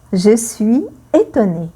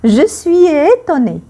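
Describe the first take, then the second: First: Said in the usual way. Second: High surprised exclamation; mock astonished "Je suis étonnée"; acted astonishment. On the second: Shown as a demonstration. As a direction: gasp it out, astonished. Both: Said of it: "quand on est surpris".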